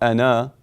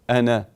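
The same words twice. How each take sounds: First: The final vowel is drawn out long. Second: The final vowel is kept short. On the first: The speaker calls it wrong. "not ana" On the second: The speaker calls it right. "One harakah, not two harakat"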